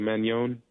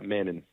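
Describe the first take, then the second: First: The middle consonant is an ny sound. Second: The middle consonant is a plain n sound. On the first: "the coaching staff added the Enye on it. Technically, I believe you're supposed to say" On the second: "all throughout college, I always said"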